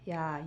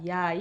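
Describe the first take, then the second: First: It is said in a soft voice. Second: It is said in a medium voice. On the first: "작은 목소리부터 시작해서" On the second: "점층적으로 크게"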